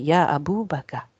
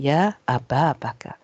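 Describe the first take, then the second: First: The word before Bakar ends in a u vowel. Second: The word before Bakar ends in an a vowel. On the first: The speaker calls it wrong. "We don't say Ya Abu Bakar" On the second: The speaker calls it right. "We say Ya Aba Bakar"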